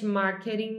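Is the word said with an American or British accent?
American. It is said with an American English accent. "marketing mais American English"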